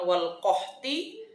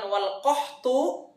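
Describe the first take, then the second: First: The last word ends with an i vowel. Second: The last word ends with an u vowel. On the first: "bukan wal qahti" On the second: "bukan wal qahtu"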